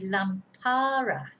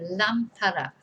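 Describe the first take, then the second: First: The stress is on the second syllable. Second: The stress is on the first syllable. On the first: The speaker calls it wrong. "because the stress would be on the second A" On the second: The speaker calls it right. "there is an accent on the first A"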